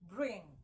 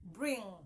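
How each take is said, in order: Both takes have the same delivery.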